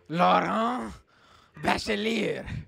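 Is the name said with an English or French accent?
French. The name is said with French sounds. The speaker calls it right.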